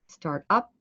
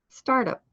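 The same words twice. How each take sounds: First: The stress falls on the second word. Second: The stress falls on the first word. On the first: It is an urgent action verb. The speaker calls it right. "emphasize the second word in the pairs" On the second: It sounds like a noun, not an action. The speaker calls it wrong. "If not, the actions will sound like"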